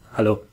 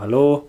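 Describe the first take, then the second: First: It is said in an annoyed, irritated tone. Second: It is said in a cheerful, friendly tone.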